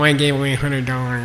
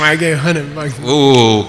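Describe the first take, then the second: First: It is said flatly, without enthusiasm. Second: It is said with loud, excited energy. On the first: The speaker lacks passion. The speaker calls it wrong. "Not like that" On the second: The speaker is full of passion. The speaker calls it right. "you gotta have passion"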